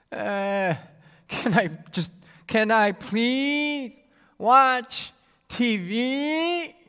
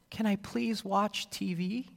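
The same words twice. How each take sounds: First: Put-on higher, dragged-out childish whine; a long, drawn-out nagging child's whine; annoying whine. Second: Put-on higher, slow sweet child asking; sweet little child's plea; sweet and cute. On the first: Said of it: "the other, well, straight up annoying". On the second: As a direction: ask nicely like a cute little kid. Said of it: "One sound sounds sweet and cute". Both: Shown as a demonstration.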